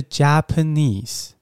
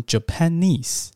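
First: Japanese said very slowly, each syllable clear, the correct stress marked. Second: Slow Japanese with the stress shifted like Japan, the way students say it wrongly; common wrong stress. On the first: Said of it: "它的重音在第一个音节Japanese". (放慢示范Japanese的正确重音) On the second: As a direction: demo the typical student mispronunciation of Japanese, slowly. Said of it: "很多台湾学生容易把这个Japanese念成". (慢慢示范学生常犯的错误重音念法) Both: Shown as a demonstration.

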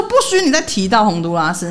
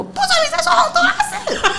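First: Said in the usual way. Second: Laughing, much higher mock shriek of 不准你再说洪都拉斯; hammed-up angry girlfriend, cracking up; mock outburst. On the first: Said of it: "他就说". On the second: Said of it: "那女生突然发飙说".

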